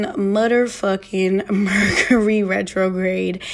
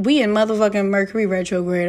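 First: Slow, emphatic repeat. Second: Quick first take. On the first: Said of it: "repeats it slowly, laughing". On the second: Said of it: "first quick take". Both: Real, not acted.

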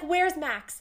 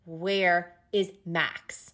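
First: Higher, urgent imitation of a worried woman; anxious retold question. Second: Slow, separated "Where is Max"; insistent retold demand. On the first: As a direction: ask it high, searching for him. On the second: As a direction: space out each word of "Where is Max", demanding an answer. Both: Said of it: "nobody will answer her".

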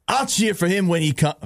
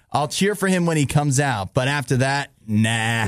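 First: Put-on higher-pitched, unconvincing Boston accent; attempted Boston accent. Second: Put-on amateur New York mafia-guy accent. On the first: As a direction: have a shaky go at Boston. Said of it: "Does that sound like Boston?". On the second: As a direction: play a mob boss from New York, lightly. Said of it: "sound like a mad mafia guy from New York".

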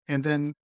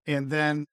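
No difference in how they are said.

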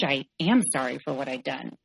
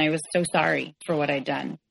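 First: "am" emphasized as the main word; stress on am. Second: Said in the usual way. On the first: Real, not acted. Speaker affirms present regret, "am" stressed. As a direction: lean on "am" to insist it is true.

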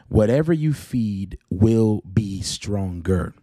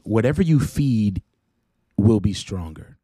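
First: Very slow, every word weighted; a slow deliberate repeat like a proverb; slow emphatic repeat. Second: Said in the usual way. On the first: Retold or imitated. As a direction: let the saying sink in, slowly.

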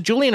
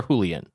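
First: "Julian" with an English J, JOO-lee-un; English pronunciation. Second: "Julian" with an H sound, HOO-lee-un; Spanish pronunciation. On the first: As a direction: say "Julian" the English way, starting with a J sound. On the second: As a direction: say "Julian" the Spanish way, starting with a breathed H. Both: Shown as a demonstration. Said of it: "On the pronunciation".

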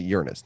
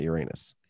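First: Uranus as YOOR-uh-nus; Uranus with a short, unstressed middle; kids' pronunciation. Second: Uranus as yur-AY-nus; Uranus sounding like "your anus"; old pronunciation. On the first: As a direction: stress the first syllable of Uranus. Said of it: "the kids these days". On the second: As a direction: stress the long AY in Uranus. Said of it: "not Uranus". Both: Shown as a demonstration.

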